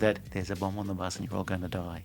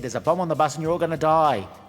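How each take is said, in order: First: It is said quietly. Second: It is shouted loudly.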